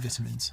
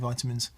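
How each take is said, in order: First: The word is pronounced the English way. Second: The word is pronounced the Australian way. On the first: "English people say vitamins" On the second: "Australians say vitamins"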